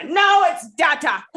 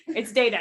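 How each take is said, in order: First: Loud, high mock outburst insisting on "data" as DAT-ah; battling inner demon. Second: "data" said as DAY-tuh, one inner demon; long-A data. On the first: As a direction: shout down the other demon, drawn out. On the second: Acted. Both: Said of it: "Fighting with his inner demons".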